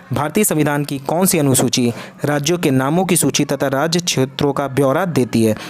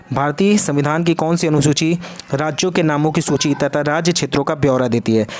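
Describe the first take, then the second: No difference in how they are said.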